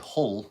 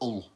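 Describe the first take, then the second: First: The word begins with an audible H sound. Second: The word begins with no H sound. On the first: "we don't say Hull" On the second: "We don't pronounce our H's... we say Ull"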